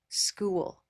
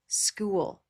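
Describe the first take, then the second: First: The vowel glides with a clear movement. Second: The vowel glides with a clear movement.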